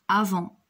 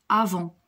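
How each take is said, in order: The two takes are said the same way.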